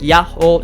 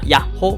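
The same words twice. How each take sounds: First: The word is drawn out long. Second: The word is said short and quick. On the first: The speaker calls it right. "Yahoo is kind of stretched out" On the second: The speaker calls it wrong.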